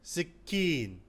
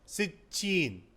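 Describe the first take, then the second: First: The middle consonant is a hard k sound. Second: The middle consonant is a ch sound. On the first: "is known as सिक्कीन" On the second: "K is pronounced as C H ... in U A E"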